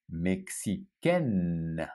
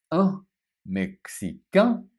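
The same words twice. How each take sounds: First: Mexicaine said very slowly with a sounded N; feminine ending with N. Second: Mexicain said slowly, ending on a nasal vowel; masculine nasal ending. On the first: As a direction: draw out Mexicaine and land on the N. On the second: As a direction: stretch out Mexicain with no final N. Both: Shown as a demonstration. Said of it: "So hear the difference".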